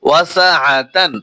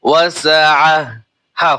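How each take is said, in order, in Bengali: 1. শব্দটি 'tan' ধ্বনি দিয়ে শেষ হয়। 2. শব্দটি 'h' ধ্বনি দিয়ে শেষ হয়। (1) "এটা বানানোর সময় হবে" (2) "গোলতা থাকলে হা উচ্চারণ হয়"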